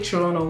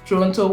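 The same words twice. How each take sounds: First: It is said the way local residents say it. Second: It is said the way most outsiders say it. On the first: "if you live in Toronto or you are a local person, you probably say Toronto, which is the ideal pronunciation" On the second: "which is the most popular pronunciation"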